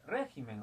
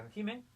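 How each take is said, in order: First: "régimen" with weight on "ré", then falling; stress on first syllable. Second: "régimen" rising high towards its final syllable; stress shifted later. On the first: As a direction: hit "ré" and drop the rest of "régimen". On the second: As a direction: lift the end of "régimen" instead of the start. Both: Shown as a demonstration. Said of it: "régimen es una palabra adoptativa".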